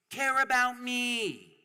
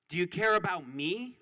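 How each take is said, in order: First: High, slow, whimpering plea; mock plea for care. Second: Said in the usual way. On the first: Speaker mocking the powerful begging for care, high and slow. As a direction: beg pitifully as a mock. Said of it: "they go".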